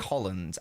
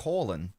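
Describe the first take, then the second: First: The name ends with a d sound. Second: The name ends without any d sound. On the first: The speaker calls it wrong. "I don't say Holland" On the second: The speaker calls it right. "There's no D being pronounced because it's the Norwegian pronunciation"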